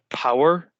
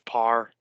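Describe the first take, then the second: First: It is said with two syllables, standard accent. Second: It is said as one syllable, Northern Irish accent. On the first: "as the correct pronunciation" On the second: "if you're from Northern Ireland, we'll call this par"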